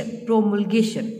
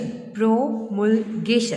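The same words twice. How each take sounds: First: Said in the usual way. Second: "प्रोमुलगेशन" drawn out slowly, syllable by syllable; slowly spelled out. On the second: Shown as a demonstration. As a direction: stretch "प्रोमुलगेशन" so students catch each sound.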